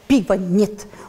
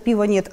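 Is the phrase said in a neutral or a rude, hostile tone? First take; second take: rude; neutral. First: It is said in a rude, hostile tone. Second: It is said in a plain, neutral tone. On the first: The notice seems to be an insult. "а то" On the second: It is simply a notice of fact. "Написали бы просто"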